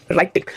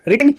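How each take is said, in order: First: Said in the usual way. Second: "written" said as "ritting", short i; mispronounced "writing". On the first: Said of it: "यही तो conversation है". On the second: Shown as a demonstration. Teacher mocking a misreading, "written" mispronounced as "ritting". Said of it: "written बोल रहे हैं".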